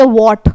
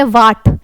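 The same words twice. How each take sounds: First: वॉट with a rounded "o" vowel, as in वॉट; pronounced "wot". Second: वाट with a long open "aa", as in वाट; pronounced "waat". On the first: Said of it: "कुछ लोग बोलेंगे वॉट". ("वॉट" को गोल "ऑ" से बोलें) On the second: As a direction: say वाट, vowel like "baat". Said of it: "कुछ लोग बोलेंगे वाट". ("वाट" को खुले लंबे "आ" से बोलें) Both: Shown as a demonstration.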